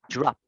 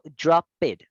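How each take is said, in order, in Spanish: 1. La palabra se dice como una sola sílaba. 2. La terminación se dice como una sílaba extra. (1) "yo digo drop" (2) "Yo no digo drop it"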